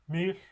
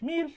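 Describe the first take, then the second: First: The word is said on a low pitch. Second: The word is said on a high pitch. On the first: It means sleep. "the low pitch" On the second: It means moth. "the highest pitch"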